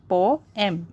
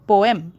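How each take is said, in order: First: "poem" as po, em with a pause; split into syllables. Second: Said in the usual way. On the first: Shown as a demonstration. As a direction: break "poem" after the o. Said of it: "there is a pause after O".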